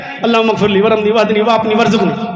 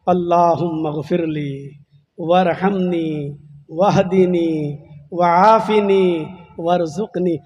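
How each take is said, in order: First: It is said jokingly, without seriousness. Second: It is said earnestly, as a humble plea.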